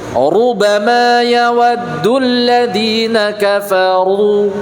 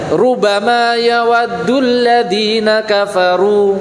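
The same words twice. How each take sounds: First: The opening 'ru' sounds heavy and thick. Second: The opening 'ru' sounds light and thin. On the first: The speaker calls it right. "ru tipis sama ru tebal" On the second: The speaker calls it wrong. "mungkin bacanya biasa saja"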